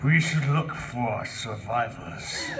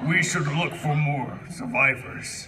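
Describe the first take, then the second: First: It is said in a put-on sexy voice. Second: It is said in a plain voice.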